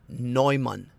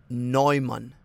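No difference in how they are said.

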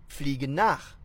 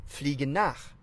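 Both takes have the same delivery.

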